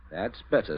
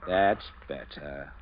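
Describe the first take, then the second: First: Said in the usual way. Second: Drawn out, slow and pleased; slow and satisfied. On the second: Acted. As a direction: savour each word slowly. Captain pleased once obeyed.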